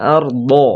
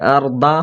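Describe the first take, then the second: First: It ends in an emphatic, side-tongue dad sound. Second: It ends in a plain d with a vowel. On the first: The speaker calls it right. "জিভে পার্শ্ব কিনারাটা উপরের দাঁতের গোড়ার মাড়ির সঙ্গে লাগাতে হবে" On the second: The speaker calls it wrong. "আর দা হবে না"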